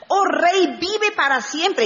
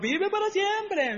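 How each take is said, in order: First: High, ringing sincere proclamation; heartfelt salute. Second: High, soft, slow mock salute; insincere flattery. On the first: Acted. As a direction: hail the king and mean it. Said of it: "este sí se lo dijo de verdad". (saludo sincero, de corazón, en voz alta) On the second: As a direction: say it like a fawning courtier who doesn't mean it. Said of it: "no como los otros". (adulación fingida, aguda y suave)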